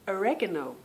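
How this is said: It is said with an American accent.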